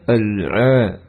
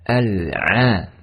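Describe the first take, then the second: First: The ain syllable sounds thick and heavy. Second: The ain syllable sounds thin and light. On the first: The speaker calls it wrong. "menebalkan huruf ain. Tidak dibaca" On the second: The speaker calls it right.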